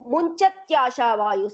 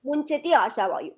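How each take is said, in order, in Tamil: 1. இடையில் ஒரு மெல்லிய ஒலியுடன் சொற்கள் ஒன்றாக இணைந்துவிடுகின்றன. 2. சொற்கள் முழு உயிரெழுத்துடன் தனித்தனியாகச் சொல்லப்படுகின்றன. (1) "சேர்த்து சொன்னா" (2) "பிரிச்சே சொல்லலாம்"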